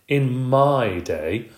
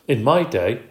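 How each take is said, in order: First: It is said in a grand, dramatic tone. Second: It is said in a plain, ordinary tone.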